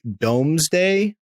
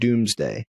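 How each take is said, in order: First: The first vowel sounds like 'dome'. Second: The first vowel sounds like 'doom'. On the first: "but it's like Domesday" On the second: "but I think it's pronounced Doomsday"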